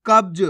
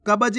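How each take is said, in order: First: कब्ज with half ब joined straight to ज; सही उच्चारण. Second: कब्ज with an extra full vowel after ब, "ka-ba-j"; गलत उच्चारण. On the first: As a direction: say कब्ज firmly and louder, no vowel after ब. (कब्ज में आधा ब, ज से जुड़ा हुआ) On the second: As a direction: misread कब्ज without the half ब. (कब्ज में ब को पूरा बोलकर, "कबज") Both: Shown as a demonstration. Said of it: "कब्ज नहीं".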